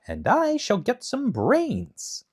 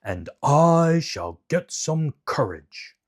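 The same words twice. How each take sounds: First: High, slow hopeful Scarecrow; lightly voiced hopeful Scarecrow. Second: Slow, changed-timbre Lion wishing for courage; lightly voiced timid Lion. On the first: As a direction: stretch out a wish for brains, high and slow. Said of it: "said the Scarecrow". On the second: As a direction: drag the words like a timid lion. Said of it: "said the Lion".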